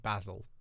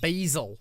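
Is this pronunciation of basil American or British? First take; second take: British; American. First: It is said in a British accent. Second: It is said in an American accent. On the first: "In the U K we say basil" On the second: "Basil is American"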